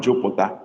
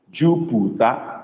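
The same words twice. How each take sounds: First: Jupiter with an open o; wrong version. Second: Slow Jupiter with close u vowels; correct form. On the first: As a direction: Jupiter like jopota. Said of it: "not Jupiter". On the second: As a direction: give Jupiter slowly as the model. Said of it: "that is the word". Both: Shown as a demonstration.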